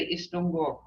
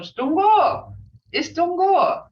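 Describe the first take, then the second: First: Gentle worried hello; concerned tone. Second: Bright cheerful greeting, much higher and louder; high, eager hello; excited greeting tone. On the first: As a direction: say it with quiet concern. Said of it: "Hear my tone?". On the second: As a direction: call out the greeting happily. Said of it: "Hear that tone?". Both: Shown as a demonstration.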